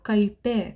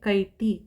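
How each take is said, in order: First: The word ends with an added 'e' vowel. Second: The word ends with an added 'i' vowel. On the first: "ಆ ಥರ ಆಗಲ್ಲ" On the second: "ಆ ಥರ ಆಗಲ್ಲ"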